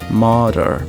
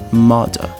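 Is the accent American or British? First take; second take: American; British. First: It has a strong retroflex American R. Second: It has a soft, subtle British R. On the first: "No inglês americano, esse R ele vai ser forte. É um R que a gente chama de R retroflexo" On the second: "no inglês britânico... esse R ele é bem sutil, ele é bem suave"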